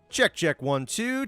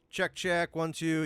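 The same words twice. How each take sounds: First: The voice is recorded at a louder level. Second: The voice is recorded at a quieter level. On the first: The speaker calls it right. "That looks a little bit better" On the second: The speaker calls it wrong. "I just have the internal setting a little bit quiet"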